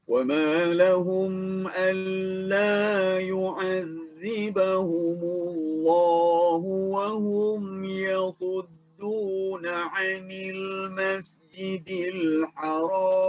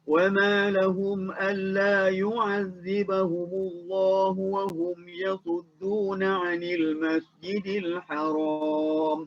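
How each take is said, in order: First: The verse is recited at a calmer, moderate pace. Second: The verse is recited at a fairly fast pace. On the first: "Kalau tertil dia akan bunyi lebih kurang macam ni lah" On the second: "Kita baca tadi tu secara tadwir"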